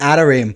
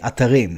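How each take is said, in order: First: It is pronounced with American English sounds and stress. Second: It is pronounced with Hebrew sounds and stress. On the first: "I even say atarim. ... I just heard Americans ta say it" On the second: "if you pronounce it in the Hebrew way, it's actually atarim"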